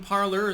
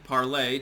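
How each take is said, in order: First: The name is pronounced in an English way. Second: The name is pronounced like the French word. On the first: This is the pronunciation the site now uses. "they changed the pronunciation" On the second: This is the pronunciation originally intended for the name. "Parlay, technically, ... like the French word for for speak"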